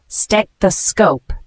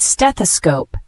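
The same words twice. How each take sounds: First: Stethoscope drawn out slowly, syllable by syllable; slow careful pronunciation. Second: Said in the usual way. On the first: Shown as a demonstration. Teacher showing learners how it is pronounced, stethoscope slowly in syllables. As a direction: sound out stethoscope in slow, separate parts. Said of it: "pronounced like this". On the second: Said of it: "The word stethoscope".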